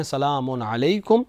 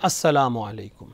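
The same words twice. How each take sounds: First: "سلام علیکم" as "salaamun alaikum"; no "as" before "سلام", an un ending; first correct form. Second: "السلام" as "assalaamu", no n; "السلام علیکم" as "assalaamu alaikum"; second correct form. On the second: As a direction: open "السلام" with "as" and end it in u. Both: Shown as a demonstration. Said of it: "سلام کے دو طریقے".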